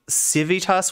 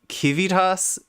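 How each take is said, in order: First: It begins with S, with V in the middle. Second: It begins with K, with V in the middle. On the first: "like Civitas would be" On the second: "used the hard C"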